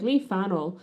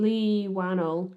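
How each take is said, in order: First: The surname starts with an F sound. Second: The surname starts with a W sound.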